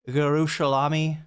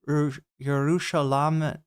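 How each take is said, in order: First: The word ends with an 'ee' sound. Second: The word ends without an 'ee' sound. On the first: "I'm saying it wrong, aren't I? It's not sh- like salami" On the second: "It doesn't rhyme with salami"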